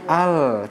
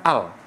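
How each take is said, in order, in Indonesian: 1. Huruf L akhir ditahan dengan bunyi yang mengalir. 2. Huruf L akhir dihentikan secara tiba-tiba. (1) "kita keluarkan sedikit aliran suara pada makhraj ya huruf lamnya" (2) "bukan al"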